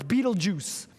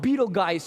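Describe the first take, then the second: First: The name is said in its casual slang pronunciation. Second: The name is said in its formal pronunciation. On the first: "the slang term for it is Betelgeuse" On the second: "how they pronounce it properly"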